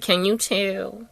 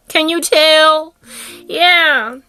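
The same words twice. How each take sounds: First: Softer, drawn-out question; understated aside. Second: High, loud, stretched-out question; emphatic repeat. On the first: Repeats the question for emphasis. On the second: Speaker pressing the audience to see it, emphatic repeat. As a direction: sing out the last word, slowly. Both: Acted.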